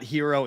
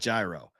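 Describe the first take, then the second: First: The word begins with an H sound. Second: The word begins with a G sound. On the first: "It's not hero" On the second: "it's not gyro"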